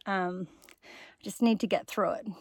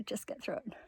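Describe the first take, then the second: First: Said in the usual way. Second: Whispering to herself, urging; a quiet whisper to keep going; whispered self-pep talk. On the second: Real, not acted.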